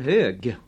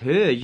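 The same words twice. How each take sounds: First: The word ends in a g sound. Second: The word ends in a j sound.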